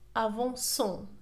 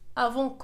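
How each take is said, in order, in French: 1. La consonne avant la terminaison se prononce comme S. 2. La consonne avant la terminaison se prononce comme K. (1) "نضيف la cd لكي تصبح لنا avançons لكي تعطينا le son C" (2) "بدون إضافة la cd ستنطق ... وهذا خطأ"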